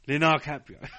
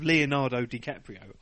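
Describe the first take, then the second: First: The name is mumbled with syllables run together. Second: Every syllable of the name is said clearly. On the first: The speaker calls it wrong. "Just slam it all in a one" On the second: The speaker calls it right. "Instead of Leonardo DiCaprio"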